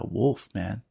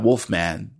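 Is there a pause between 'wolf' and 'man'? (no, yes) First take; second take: yes; no. First: There is a pause between the two words. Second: The two words run together without a pause. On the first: The thing resembles a wolf, and the listener is addressed. The speaker calls it right. "not like a wolf, comma man" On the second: The thing is a wolf-man creature. The speaker calls it wrong. "Not wolf man"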